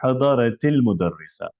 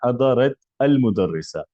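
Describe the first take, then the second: First: The words run together with an 'i' linking sound. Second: The two words are said separately, with 'al'. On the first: The speaker calls it right. "इस ता को हम जेर दे देते हैं, जेर दे के आगे मिलाते हैं" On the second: The speaker calls it wrong. "ये पढ़ने का तरीका नहीं है"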